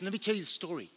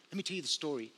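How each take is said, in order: First: Eager storyteller. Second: Softer repeat. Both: Retold or imitated. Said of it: "And she says".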